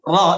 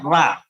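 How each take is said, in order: First: The letter ends in a rounded o vowel. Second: The letter ends in an open a vowel. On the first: The speaker calls it right. "ketika mengucapkan ro" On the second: The speaker calls it wrong. "itu jadi apa? Ra. Ya itu pakai a"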